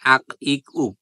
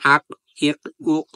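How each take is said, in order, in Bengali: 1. প্রতিটি শেষের ব্যঞ্জন কোনো ধাক্কা ছাড়াই সাধারণভাবে থেমে যায়। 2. প্রতিটি শেষের ব্যঞ্জন ধাক্কা দেওয়া প্রতিধ্বনি দিয়ে ছাড়া হয়। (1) "আর স্বাভাবিকভাবে কি হতো?" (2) "কিন্তু ধাক্কা দিয়ে পড়ার কারণে"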